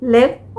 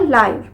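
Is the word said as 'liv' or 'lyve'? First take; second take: liv; lyve. First: The vowel is short, like 'liv'. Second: The vowel is long, like 'lyve'. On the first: It means to be alive. "Pronunciation है इसकी लिव" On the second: It means broadcast as it happens. "और लाइव"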